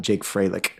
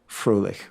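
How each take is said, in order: First: The name is said with an anglicized pronunciation. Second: The name is said with a German pronunciation. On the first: This is how the bearer says his own name. "is how he pronounced it" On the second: This is the original form, meaning cheerful. "right, in German"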